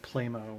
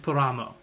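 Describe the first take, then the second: First: The first vowel sounds like 'play'. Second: The first vowel sounds like 'pla'. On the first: The speaker calls it wrong. "I said Playmo when I was in a store" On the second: The speaker calls it right. "It's actually Plamo"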